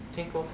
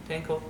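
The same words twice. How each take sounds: The two takes are said the same way.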